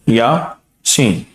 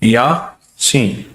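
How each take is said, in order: The two takes are said the same way.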